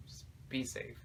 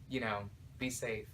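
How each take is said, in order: First: Whispered "Just be safe", softer and breathed out. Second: Said in the usual way. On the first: Real, not acted. Vlogger whispering a last warning to viewers about vacations.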